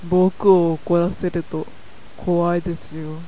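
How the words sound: The voice is low and heavy, slightly menacing. The character sounds like a bit of a gangster. "低い声でシトラスを演じるとどうなるかとなるとこうなります / ちょっぴりヤクザな感じ"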